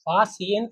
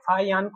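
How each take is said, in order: First: The middle consonant is an s sound. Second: The middle consonant is an h-like sound. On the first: "ये सा जो है ना" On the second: "हा type निकलता है"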